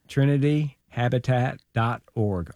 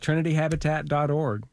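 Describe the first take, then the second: First: It is said slowly. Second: It is said at normal speed.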